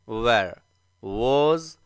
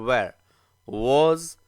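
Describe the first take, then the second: No difference in how they are said.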